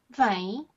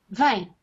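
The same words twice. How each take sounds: First: It is said as a questioning query. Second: It is said as a firm order.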